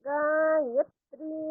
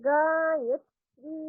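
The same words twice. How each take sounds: Both takes have the same delivery.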